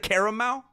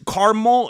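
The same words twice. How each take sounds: First: The word is said with three syllables. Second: The word is said with two syllables. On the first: The speaker calls it right. "instead of caramel... There's another A in there" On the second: The speaker calls it wrong. "people say caramel"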